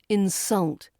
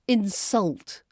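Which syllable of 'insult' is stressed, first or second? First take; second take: second; second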